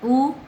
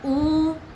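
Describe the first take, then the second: First: The vowel is very short, one beat. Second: The vowel is held beyond two beats. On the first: "छोटा ह्रस्व एक मात्रा" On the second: "प्लुत दो मात्रा से ज़्यादा"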